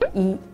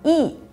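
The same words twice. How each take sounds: First: It is said with a Seoul accent. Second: It is said with a Gyeongsang accent.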